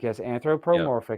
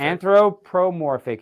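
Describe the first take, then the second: First: Said in the usual way. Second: Slowly sounded out, syllable by syllable; working through "Anthropomorphic" slowly after being corrected; careful repeat. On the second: Shown as a demonstration. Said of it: "like, anthropomorphic".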